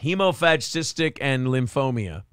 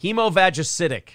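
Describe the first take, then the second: First: "Hemophagocytic" squashed to hee-mo-fadge-SIS-tic; "Hemophagocytic" with a syllable swallowed and an extra s; mimicked mispronunciation. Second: "Hemophagocytic" with every syllable, hee-mo-fadge-uh-SIT-ic; measured, complete "Hemophagocytic"; careful pronunciation. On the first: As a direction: copy the garbled "Hemophagocytic", then lim-FOH-mee-uh. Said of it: "and hemophagocytic or some sh". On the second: Shown as a demonstration. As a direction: read "Hemophagocytic" out correctly, piece by piece. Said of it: "Okay, here's the words".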